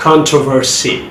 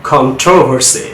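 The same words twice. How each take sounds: First: কন্ট্রোভার্সি as "CON-truh-ver-see"; American front-stressed কন্ট্রোভার্সি; American pronunciation. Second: কন্ট্রোভার্সি as "con-TROV-er-see"; British "TROV" stress in কন্ট্রোভার্সি; British pronunciation. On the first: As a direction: stress the first syllable of কন্ট্রোভার্সি. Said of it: "কীভাবে আমেরিকানরা sound করে". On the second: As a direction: stress the second syllable of কন্ট্রোভার্সি. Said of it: "কীভাবে ব্রিটিশে sound করে". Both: Shown as a demonstration.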